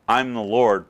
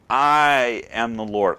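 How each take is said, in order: First: It is said casually, without emphasis. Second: It is said emphatically, like a command.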